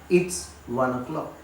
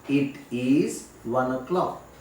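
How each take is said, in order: First: The words "it is" are contracted to "it's". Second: The words "it is" are said in full. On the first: The speaker calls it right. "Instead, we say it's" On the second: The speaker calls it wrong. "we don't say it is"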